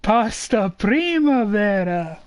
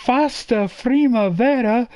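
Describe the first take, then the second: First: Pasta said slowly with a clear P; corrected pronunciation. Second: Fasta said with F instead of P; wrong pronunciation. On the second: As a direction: say Fasta primavera, F sound. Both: Shown as a demonstration. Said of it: "No, no, no, no".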